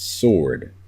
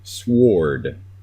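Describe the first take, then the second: First: No W sound is heard after the S. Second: A W sound is heard after the S. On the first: The speaker calls it right. "you don't say the W" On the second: The speaker calls it wrong. "if you were pronouncing it phonetically"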